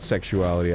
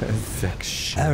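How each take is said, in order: First: The word is said in a plain, ordinary way. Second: The word is said in a creepy, leering way.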